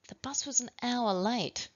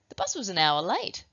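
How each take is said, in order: First: The sentence is said in a suspicious tone. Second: The sentence is said in a surprised tone.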